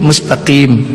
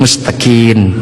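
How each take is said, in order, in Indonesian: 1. Kata ini diakhiri dengan bunyi m. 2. Kata ini diakhiri dengan bunyi n.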